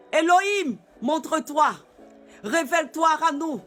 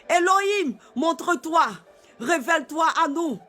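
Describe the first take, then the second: No difference in how they are said.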